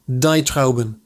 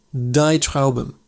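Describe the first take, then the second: No difference in how they are said.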